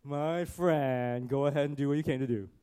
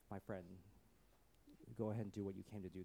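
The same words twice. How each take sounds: First: Loud, sneering mock friendliness; put-on sarcastic taunt. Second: Very soft, low, tender; hushed, sincere affection; loving. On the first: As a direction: say it with biting sarcasm, quick at the end. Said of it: "did not say this in a sarcastic way". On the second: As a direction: speak gently to someone you love. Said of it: "it was almost in this loving sense". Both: Shown as a demonstration.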